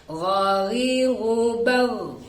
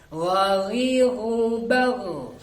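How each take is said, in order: No difference in how they are said.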